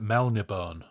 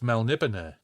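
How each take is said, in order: First: The name ends without a sounded final e. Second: The name ends with a sounded final e. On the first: "No accent on the E in this book. So so you could easily call it Melnibone" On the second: "hearing Moorcock say it as Melniboné"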